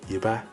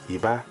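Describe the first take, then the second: First: A low tone followed by a high tone. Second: The same.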